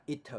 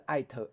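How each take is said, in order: First: "it" with an "ee"-like i vowel; correct short-i "it". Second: "it" said wrongly like "eye-t"; mispronounced "it". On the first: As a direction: say "it" with i, no "eye" glide. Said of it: "袂啊，拢嘛it". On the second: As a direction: give "it" a long "eye" vowel. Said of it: "你敢会念做it". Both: Shown as a demonstration.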